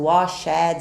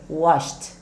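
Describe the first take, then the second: First: The ending is said as an extra syllable. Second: The ending is a short T sound. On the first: The speaker calls it wrong. "não pronunciamos o washed" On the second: The speaker calls it right. "Vai ter um sonzinho de T também"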